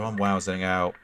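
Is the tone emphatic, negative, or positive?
negative. It is said in a negative, downcast tone. Something bad is happening. "is a bad thing"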